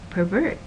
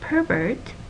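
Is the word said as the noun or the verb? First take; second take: verb; noun. First: It has the stress pattern of the verb. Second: It has the stress pattern of the noun. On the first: The word names an action. "Don't pervert the idea" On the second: The word names a person. "as in my neighbor is a pervert"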